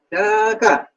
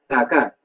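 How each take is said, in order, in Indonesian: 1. Vokalnya diucapkan panjang. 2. Vokalnya diucapkan pendek. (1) "untuk menunjukkan makna jauh sekali" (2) "itu untuk menunjukkan makna jauh"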